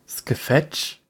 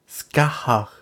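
First: The middle consonant sounds like f. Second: The middle consonant sounds like h. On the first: The speaker calls it wrong. "Nein, Lukas, wird natürlich Skahach ausgesprochen" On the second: The speaker calls it right. "wird natürlich Skahach ausgesprochen"

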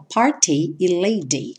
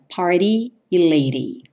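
First: It is said with a British accent. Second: It is said with an American accent.

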